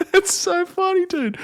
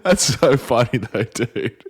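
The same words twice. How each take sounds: First: High squealing laugh through the words; cracking up, voice jumps way up. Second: Said in the usual way. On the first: Real, not acted. Bursts out laughing at clip.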